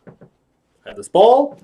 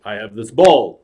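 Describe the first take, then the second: First: Slow, high, rising showman lilt; magician's patter. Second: Low, falling imitation of the patter; Robert De Niro. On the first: Acted. Clown shows De Niro a trick, high rising patter. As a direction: lift the last word high. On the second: Actor tries the clown's trick, low-voiced impression. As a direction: drop the line low at the end. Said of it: "So now he tries it".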